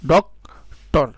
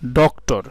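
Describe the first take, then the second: First: ডক্টর drawn out very slowly, syllable by syllable; teacher splitting ডক্টর into syllables; slow syllable split. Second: Said in the usual way. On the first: Shown as a demonstration. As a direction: stretch ডক্টর into two clear beats. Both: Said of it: "এই ওয়ার্ডটাকে আমরা কিভাবে বলতে পারি?".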